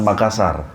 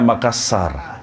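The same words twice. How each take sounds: First: The s sound is short. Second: The s sound is held long. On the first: "bukan Makassar" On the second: "Saya bilangnya Makassar, ... S-nya dua"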